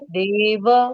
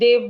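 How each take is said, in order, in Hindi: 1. अंतिम छोटा स्वर पूरा उच्चारित किया जाता है। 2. अंतिम छोटा स्वर छोड़ दिया जाता है। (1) "संस्कृत में देव वो पूरा बोलना पड़ेगा" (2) "हम देव बोलते हैं हिंदी में"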